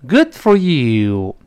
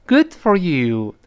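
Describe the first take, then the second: First: Very slow, louder ironic Good for you, you hit hard; sarcastic, stress on you. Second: Slow approving good for you. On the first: Teacher shows the ironic Good for you. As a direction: drag it out with scorn. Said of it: "带出语气来". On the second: Teacher models sincere approval of a success. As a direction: praise them sincerely, slowly. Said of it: "语气是这样的". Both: Shown as a demonstration.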